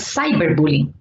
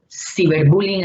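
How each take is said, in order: First: The first part is pronounced the English way. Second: The first part is pronounced the Spanish way. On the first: "en inglés ... que sería cyberbullying"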